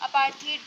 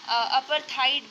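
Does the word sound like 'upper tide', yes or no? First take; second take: no; yes. First: It is said as one smooth word. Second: It is split and sounds like upper tide. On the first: The speaker calls it right. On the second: The speaker calls it wrong.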